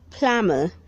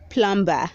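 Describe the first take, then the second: First: The B sound is silent. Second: The B sound is pronounced. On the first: The speaker calls it right. "Say plumber. The B is silent" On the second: The speaker calls it wrong. "Don't say plumber"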